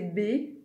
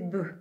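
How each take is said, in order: First: The consonant is followed by a vowel. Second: The consonant is said alone without a vowel. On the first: This is the letter's name. "Le nom de la lettre" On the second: This is the sound the letter makes. "son bruit"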